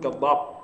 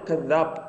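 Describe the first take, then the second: First: The middle consonant is heavy and emphatic. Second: The middle consonant is a plain 'th' sound. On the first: This is the Sudanese dialect form. "يقول كذاب" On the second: This is the standard Arabic form. "لا يقول كذاب"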